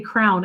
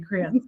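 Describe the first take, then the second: First: The word is squeezed into one syllable. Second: The word is said with two syllables. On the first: This is the speaker's old habit. The speaker calls it wrong. "how I I used to say crown" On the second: This is the way the other person says it. The speaker calls it right. "that's awesome that you say crayon"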